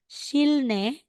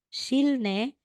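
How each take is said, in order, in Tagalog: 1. Binibigkas ang mga katinig sa gitna na l, tapos n. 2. Binibigkas ang mga katinig sa gitna na l, tapos n.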